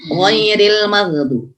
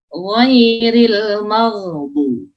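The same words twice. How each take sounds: First: "ghairil maghdu-" with too brief a gh; "maghdu-" with the ghain wrongly clipped; ghain cut short. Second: "ghairil maghdu-" chanted slowly, gh held and flowing; "maghdu-" higher, with a drawn-out ghain. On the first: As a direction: hurry past the gh in "maghdu-" without letting it flow. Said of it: "nggak boleh". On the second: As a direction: let the gh in "maghdu-" run on before "du". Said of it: "harus rukhawah". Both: Shown as a demonstration.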